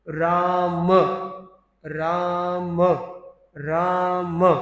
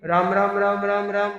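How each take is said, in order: First: Each word is separated by a short pause. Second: The words run together without any pause. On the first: The name is heard clearly as Ram. The speaker calls it right. "उसमें एक अल्प विराम को जोड़ा जाए। ... तब तो ठीक है।" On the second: The name starts to sound like mara. The speaker calls it wrong. "मरा मरा मरा हो जाएगा। ... वो अल्प विराम नहीं।"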